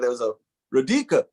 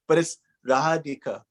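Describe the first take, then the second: First: The second syllable is strongly stressed. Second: The second syllable is not stressed. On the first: The speaker calls it wrong. "if you showed Radhika on a piece piece of paper to somebody in American" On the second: The speaker calls it right. "which is so much nicer"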